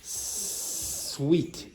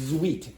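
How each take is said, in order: First: The word begins with a hissing s sound. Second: The word begins with a buzzing z sound. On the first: The speaker calls it right. "it's sweet" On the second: The speaker calls it wrong. "will start pronouncing s like z. Okay, but it's not sweet"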